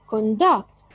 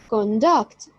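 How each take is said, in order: First: The stress is on the second syllable. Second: The same.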